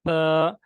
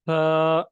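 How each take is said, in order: The two takes are said the same way.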